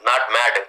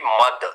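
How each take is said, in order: First: The vowel sounds like the one in 'cat'. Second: The vowel sounds like the one in 'cup'. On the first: The speaker calls it wrong. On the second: The speaker calls it right. "M A D, mud"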